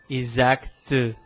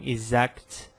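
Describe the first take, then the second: First: A vowel sound follows the final t. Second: The final t is pure, without vowel. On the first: The speaker calls it wrong. "porque eu não falo exact" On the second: The speaker calls it right. "mas sim exact"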